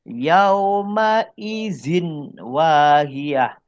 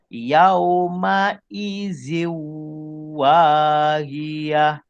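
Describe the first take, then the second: First: The n sound is kept before the w. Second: The n sound merges into a nasalized w. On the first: "ni bentuk asal" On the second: "daripada zin ni masuk ke waw"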